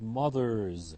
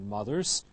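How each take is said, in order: First: The word ends in a voiced buzzing z. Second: The word ends in a voiceless hissing s. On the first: The speaker calls it right. "followed by a voiced ending" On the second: The speaker calls it wrong. "not mothers"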